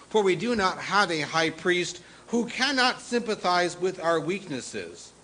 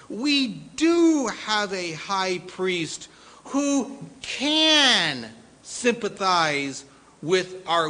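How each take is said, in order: First: Said in the usual way. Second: "do" and "can" stretched high and loud, slowly; emphatic DO. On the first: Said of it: "what are the things that jump off". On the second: Shown as a demonstration. Preacher recasting the verse, slow emphatic "do" and "can". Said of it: "must have an emphatic understanding".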